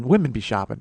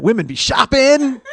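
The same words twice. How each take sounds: First: Said in the usual way. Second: Higher, louder, slow stand-up catchphrase with a laugh; hack comic catchphrase. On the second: Shown as a demonstration. Host mocking a hack comedian catchphrase, hammed up. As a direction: ham up the old-comic line. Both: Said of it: "some people will know what that's from".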